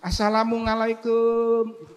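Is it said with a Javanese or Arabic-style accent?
Javanese. It is said with a Javanese accent.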